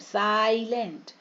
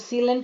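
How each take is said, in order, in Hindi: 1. पहला स्वर 'eye' जैसी ध्वनि करता है। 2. पहला स्वर 'ee' जैसी ध्वनि करता है।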